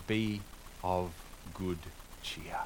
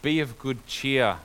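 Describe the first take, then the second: First: Put-on quiet, word by word, old translation read out; softly spaced old-fashioned quotation; slow quoted reading. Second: Slow, louder, each word weighted; firm, slow encouragement; emphatic repeat. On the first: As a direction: read out the old wording, savouring it. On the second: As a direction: press the phrase home. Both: Shown as a demonstration. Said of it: "as one of the older translations put it".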